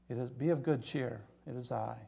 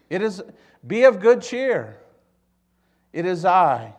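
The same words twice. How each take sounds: First: Soft, hushed comfort; quiet reassurance. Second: Loud, high proclamation; calling out. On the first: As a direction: say it gently, well below speaking volume. Repeats Jesus's words, now gently. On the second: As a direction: proclaim it boldly across the storm. Jesus calling to disciples, first take. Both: Acted.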